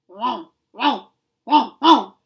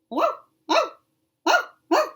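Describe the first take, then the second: First: Deep, growling barks like a big dog. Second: High, yipping barks like a small puppy. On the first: "in the deep growling voice of a large, angry dog" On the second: "I wonder if it's like that, yipping like a young puppy"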